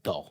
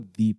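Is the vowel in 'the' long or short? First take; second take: short; long. First: The vowel is short, like 'thuh'. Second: The vowel is long, like 'thee'. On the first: The next word starts with a consonant. "इसको बोला जाता है द" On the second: The next word starts with a vowel. "उसे हमेशा ही आप दी पढ़ेंगे"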